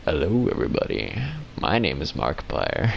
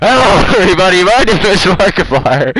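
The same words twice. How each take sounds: First: Very low, soft silky smooth voice; deep velvety YouTuber intro; silky smooth impression of the YouTuber's deep voice; Markiplier impression. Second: Fast, blaring intro shouted into the mic; loud mock Markiplier. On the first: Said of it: "He got that silky smooth voice". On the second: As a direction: blast it loud and quick. Loud second take of intro.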